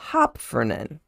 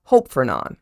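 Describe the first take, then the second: First: "Hopfernan" run together as one word; wrong try at the name. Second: "Hope Fernon" split into two clear words, HOPE stressed; corrected name. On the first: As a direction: say "Hopfernan" as one word, stress on the first syllable. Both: Shown as a demonstration.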